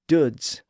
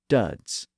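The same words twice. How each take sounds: First: It has the older Northern English vowel. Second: It has the newer Southern English vowel. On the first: This is the older pronunciation. "The northern part retained the older vowel sound" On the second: This is the newer pronunciation. "that vowel sound was starting to change in the south of England"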